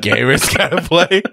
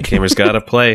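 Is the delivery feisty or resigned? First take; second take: feisty; resigned. First: It is said with fiery, feisty energy. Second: It is said with flat, resigned sadness. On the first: The speaker calls it right. "Piss and vinegar when you say it" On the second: The speaker calls it wrong. "We all said it with such like resigned sadness"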